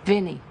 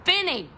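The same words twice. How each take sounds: First: Said in the usual way. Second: VINNY pitched high, then falling; high, exclaimed "Vinny"; calling out. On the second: Acted. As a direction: call "Vinny" out high like a holler. Calls out the nickname.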